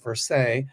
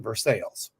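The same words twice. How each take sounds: First: The name is said the French way. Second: The name is said the Kentucky American way. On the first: This is how the name is said in France. "In France, it's pronounced Versailles" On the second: This is how the name is said in Kentucky. "In Kentucky, they pronounce it Versailles"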